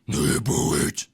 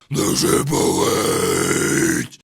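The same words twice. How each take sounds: First: It is grunted, not fully projected. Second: It is fully projected, not grunted.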